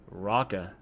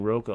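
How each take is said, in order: First: It begins like the word rock. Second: It sounds like the candy name Roca. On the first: The speaker calls it right. "but it's actually Rocka" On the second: The speaker calls it wrong. "I keep on saying Roca, like almond Roca"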